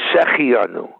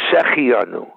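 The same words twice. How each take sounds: First: The middle 'heh' syllable is skipped. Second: The same.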